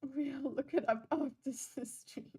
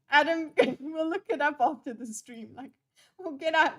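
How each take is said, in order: First: Laughing through it. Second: Dad voice. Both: Retold or imitated. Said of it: "He sounds like a dad".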